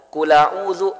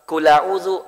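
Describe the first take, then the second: The two takes are said the same way.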